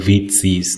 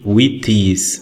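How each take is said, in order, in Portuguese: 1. É pronunciada com a pronúncia eclesiástica do latim. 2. É pronunciada com a pronúncia clássica reconstruída do latim. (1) "na pronúncia eclesiástica" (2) "na pronúncia reconstituída"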